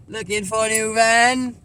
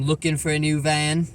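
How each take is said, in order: First: Slow, stretched "Looking for a new van"; drawn-out repeat. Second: Said in the usual way. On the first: Pretend. Vlogger echoing himself about van hunting, drawn out. Repeats own words for effect.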